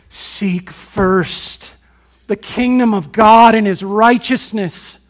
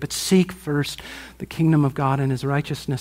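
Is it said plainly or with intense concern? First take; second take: intense concern; plainly. First: It is said intensely, with urgent concern. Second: It is said in a plain, calm way.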